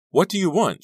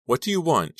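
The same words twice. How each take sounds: First: High, loud desperate question; shrieked, panicky demand; frightened cry. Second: High, somewhat loud question; tense, raised-pitch demand; anxious question. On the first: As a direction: cry it out in fear. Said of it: "she cried". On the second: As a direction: ask anxiously, short of a full cry. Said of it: "she asked". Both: Acted.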